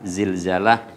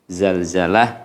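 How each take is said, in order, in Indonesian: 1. Suku kata pertama memakai vokal 'i'. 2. Suku kata pertama memakai vokal 'a'. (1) "Ada yang mengatakan Zilzalah juga enggak apa-apa" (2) "ada yang mengatakan Zalzalah juga enggak apa-apa"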